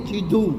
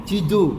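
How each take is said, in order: No difference in how they are said.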